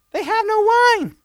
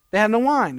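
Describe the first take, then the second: First: Much higher, slow, hammed-up worried mom; high mock mother voice. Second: Said in the usual way. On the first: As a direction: play Mary as a fretting mother. Mary voiced high in retelling. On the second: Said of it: "but she's basically".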